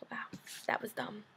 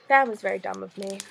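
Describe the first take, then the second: First: Whispered to herself; sheepish whisper after reading aloud. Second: Said in the usual way. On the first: Real, not acted. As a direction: say it under your breath, embarrassed.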